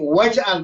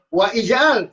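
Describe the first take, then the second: First: The 'i' vowel is dropped, linking 'wa' and 'j'al'. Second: The 'i' vowel is pronounced separately after 'wa'. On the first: The speaker calls it right. "Wahai Tuhan kami, waj'al" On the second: The speaker calls it wrong. "Bukan wa ij'al. Salah"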